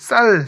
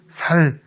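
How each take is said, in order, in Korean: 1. 첫 자음은 경음 ss 소리예요. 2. 첫 자음은 평음 s 소리예요.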